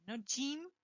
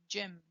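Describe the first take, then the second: First: Gym with a hard G, higher; wrong gym. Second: Gym with a J sound, JIM; correct gym. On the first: Teacher mimics the wrong hard-G gym. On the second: Teacher models Gym with a J. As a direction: start Gym with a firm J. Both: Shown as a demonstration.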